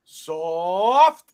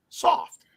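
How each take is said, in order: First: Said in the usual way. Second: New York accent. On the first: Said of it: "I'm gonna spell it out for you". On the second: Shown as a demonstration. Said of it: "in your finest New York accent".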